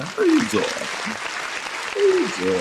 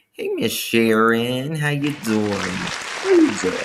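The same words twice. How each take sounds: First: Way up high, the second stretched slow and breathy; high squeaky greeting. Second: Rising higher, the second drawn out slow; high playful greeting. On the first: Host greeting Veronica in a squeaky falsetto, playful. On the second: Host greeting Sharon in a high drawn-out voice. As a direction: sing it up high and stretch it. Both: Pretend.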